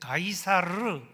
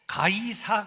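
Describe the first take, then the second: First: The name ends with a final R sound. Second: The name ends without a final R sound. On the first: "가이사 그 뒤에 R이라는 발음이 있습니다" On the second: "우리는 가이사라고만 부릅니다만은"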